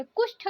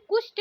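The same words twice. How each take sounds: First: कुष्ठ ending in aspirated th; correct pronunciation. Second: कुष्ठ ending in plain t; no breath puff closing कुष्ठ; wrong pronunciation. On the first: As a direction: say कुष्ठ as "kushth". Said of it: "ठ के स्थान पे ट". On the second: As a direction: say कुष्ठ as "kusht". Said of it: "कुष्ठ नहीं बोला जाता". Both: Shown as a demonstration.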